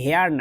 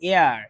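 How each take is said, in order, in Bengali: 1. শব্দটি h ধ্বনি দিয়ে শুরু হয়। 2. শব্দটি সরাসরি একটি স্বরবর্ণ দিয়ে শুরু হয়। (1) "এটার উচ্চারণ কিন্তু হেয়ার না" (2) "উচ্চারণটা এয়ার, মানে ভাওয়েল"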